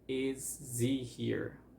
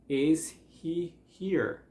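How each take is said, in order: First: The h drops and 'is' links into 'he'. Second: The h in 'he' is clearly pronounced.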